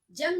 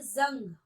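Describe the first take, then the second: First: जंग starting with j; undotted j in जंग; wrong जंग. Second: जंग starting with buzzing z; dotted z in जंग; nukta जंग. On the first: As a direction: say जंग as jang. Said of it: "जंग नहीं बोलेंगे". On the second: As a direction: say जंग as zang. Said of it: "बोलेंगे जंग". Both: Shown as a demonstration.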